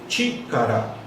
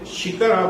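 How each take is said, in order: First: The word begins with a sharp 'ch' sound. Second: The word begins with a soft 'sh' sound. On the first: The speaker calls it right. "você lê Chikara" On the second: The speaker calls it wrong. "você não lê Shikara"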